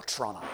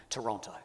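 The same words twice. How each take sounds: First: Toronto squeezed down to "Tronna"; local pronunciation. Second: Said in the usual way. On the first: Shown as a demonstration. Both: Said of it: "as you call it".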